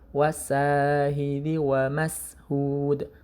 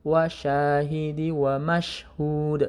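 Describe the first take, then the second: First: The first word has a plain s sound. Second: The first word has an sh sound. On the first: The speaker calls it wrong. "Jangan wasahidi wa mashhud" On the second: The speaker calls it right. "tapi pakai shin"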